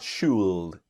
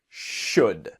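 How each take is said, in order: First: The word is said with an L sound. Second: The word is said with no L sound. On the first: The speaker calls it wrong. "not should" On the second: The speaker calls it right. "the L is silent"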